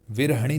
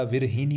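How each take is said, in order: First: विरहणी with ha for hi; mispronunciation demo. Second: विरहिणी with a clear hi; correct pronunciation. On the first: Teacher shows the mistake, विरहणी mispronounced as vir-ha-ni. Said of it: "विरहणी नहीं होता". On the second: Teacher corrects students, विरहिणी pronounced vir-hi-ni. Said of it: "विरहिणी होता है". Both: Shown as a demonstration.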